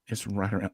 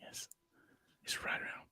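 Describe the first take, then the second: First: Said in the usual way. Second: Hushed announcer whisper; golf whisper. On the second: Pretend. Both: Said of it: "I had to use my golf voice".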